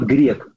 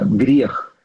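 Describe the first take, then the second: First: The word ends in a hard k sound. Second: The word ends in a rough kh sound. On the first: The speaker calls it wrong. "неправильное произношение слова грех" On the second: The speaker calls it right. "по-русски правильно"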